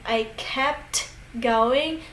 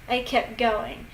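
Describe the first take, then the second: First: "kept going" slowly, with the T in "kept" sounded; fully pronounced T. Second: "kept going" linked, no T heard in "kept"; dropped T. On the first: Teacher showing the form natives avoid, slow "kept going" with T. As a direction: separate "kept" from "going" with a released T. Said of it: "So instead of saying". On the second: Teacher showing how natives say it, "kept going" without the T. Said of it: "they just don't say the T". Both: Shown as a demonstration.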